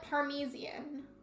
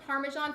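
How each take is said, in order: First: It is said with an extra 'ee' sound. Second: It is said without an extra 'ee' sound. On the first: The speaker calls it wrong. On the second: The speaker calls it right.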